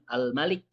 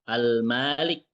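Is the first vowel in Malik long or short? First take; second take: short; long. First: The vowel after the m is short. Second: The vowel after the m is long. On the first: The one who rules. "pendek, tidak panjang" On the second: The one who owns. "mimnya panjang"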